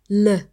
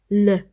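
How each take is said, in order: Both takes have the same delivery.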